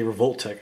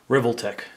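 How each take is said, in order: First: It is said as 'revolt' plus 'tech'. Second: It is not split into 'revolt' plus 'tech'. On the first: It is read like the graffiti name Revolt. "when I see Revolt, then I see Tech, I just say Revolt Tech" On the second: Other people say it this way. "I heard other people say Revoltech"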